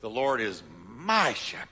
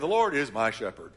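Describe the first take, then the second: First: It is said proudly, leaning on 'my'. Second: It is said in a plain, even way. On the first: The speaker boasts that the Lord is his own. The speaker calls it right. "I want us to brag a little bit" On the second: It simply states a fact. The speaker calls it wrong. "Instead of just saying"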